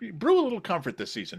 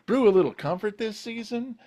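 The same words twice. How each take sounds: First: The voice falls at the end. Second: The voice rises at the end. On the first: The speaker calls it right. "go down on it. Make it a definitive, you know, a resolution" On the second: The speaker calls it wrong. "kind of you kind of went up on it"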